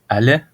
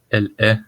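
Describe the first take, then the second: First: It is reduced with an open a sound, like allait. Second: It is said in full with both words. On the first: "soit allait" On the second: "elle est devient"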